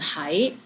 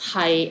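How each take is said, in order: First: The syllable is said in the second tone. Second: The syllable is said in the sixth tone. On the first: It means to be somewhere. "this one is in second tone" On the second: It means to be. "Hai is in six tones"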